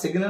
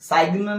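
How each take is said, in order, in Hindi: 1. छोटा 'i' स्वर, उसके बाद साफ़ सुनाई देने वाला g। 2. लंबा 'ai' स्वर, उसके बाद साफ़ सुनाई देने वाला g। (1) "सिग्न नहीं होगा" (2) "साइग्न नहीं होगा"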